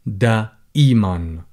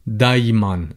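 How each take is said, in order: First: The middle has a glottal stop, standard style. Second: The middle has a light y-glide, dialect style.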